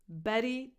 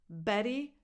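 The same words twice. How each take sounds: The two takes are said the same way.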